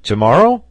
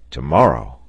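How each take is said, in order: First: High, loud, rising question; excited, hopeful query; eager question. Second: Low, firm, falling answer; settled, emphatic reply; firm confirmation. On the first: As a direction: ask it keenly, voice leaping up at the end. Eager sailor asks the captain. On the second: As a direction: confirm it decisively, pitch dropping. Captain confirms the sailor's question. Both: A narrator's reading.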